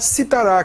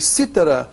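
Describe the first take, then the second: First: The stress is on the last syllable. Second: The stress is on the first syllable. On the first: It is a future form of the verb to cite. "que é o futuro do presente do indicativo" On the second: It names a musical instrument. "que é um instrumento musical"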